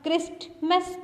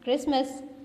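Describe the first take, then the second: First: A t sound is heard after the s. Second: No t sound is heard after the s. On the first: The speaker calls it wrong. "आप क्रिस्टमस तो नहीं कहते ना" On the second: The speaker calls it right. "आप क्या कहते हैं?"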